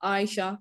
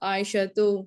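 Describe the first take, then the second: First: The name ends with a plain 'a' sound. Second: The name ends with a 'tu' sound. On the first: The speaker calls it wrong. "ऐसे नहीं पढ़ेंगे" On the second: The speaker calls it right. "इसको करेक्ट ऐसे ही पढ़ेंगे"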